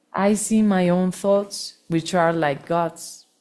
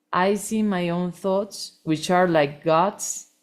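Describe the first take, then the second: No difference in how they are said.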